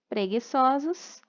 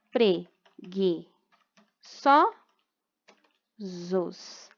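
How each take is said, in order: First: Said in the usual way. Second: Preguiçosos very slowly as pre, gui, ço, sos; four isolated beats for preguiçosos; syllable by syllable. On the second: Shown as a demonstration. Teacher showing the separation, preguiçosos with long gaps between syllables. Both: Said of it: "assim a separação de sílaba".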